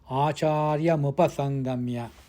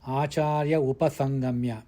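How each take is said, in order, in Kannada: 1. m ಅನ್ನು ಮುಂದಿನ ಪದಕ್ಕೆ ಒಯ್ಯಲಾಗುತ್ತದೆ. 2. m ಅನ್ನು ಬಿಡಲಾಗುತ್ತದೆ, upasangamya ಗೆ ಮೊದಲು ವಿರಾಮ ಇದೆ. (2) "it should not be pronounced as"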